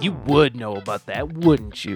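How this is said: It is said in a snarky, mocking tone.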